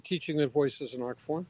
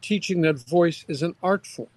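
First: It is said flatly, without emotional energy. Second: It is said with strong emotional energy.

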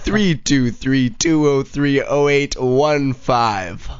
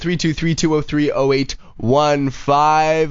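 First: The number is said more slowly and carefully. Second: The number is said at a normal, quicker pace.

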